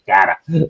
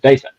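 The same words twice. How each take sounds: First: The word is said in an American accent. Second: The word is said in a South African accent. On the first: "I think in America it's data" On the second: "So that's a South African accent"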